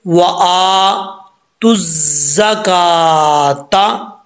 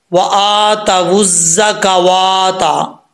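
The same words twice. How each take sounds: First: Very slow, तुज़्ज़ा with no waw, ka short; correct reading. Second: Slow, with the waw sounded as वुज़्ज़ा and a long वा; the common mistake: ता वुज़्ज़ा का वा ता, drawn out; wrong reading. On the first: Teacher giving students the correct reading after the mistake, slow. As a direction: chant तुज़्ज़ा का ता slowly and cleanly. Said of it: "सही क्या पढ़ेंगे?". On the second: Teacher imitating the common mistake, slow and deliberate. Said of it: "ये गलत है". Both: Shown as a demonstration.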